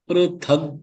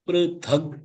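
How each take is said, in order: No difference in how they are said.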